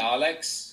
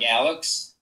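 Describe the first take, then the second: First: The name is said with a German pronunciation. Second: The name is said with an American pronunciation. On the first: This is how German friends say it. "German friends call me Alex" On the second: This is how people in the US say it. "In U S, it's like Alex"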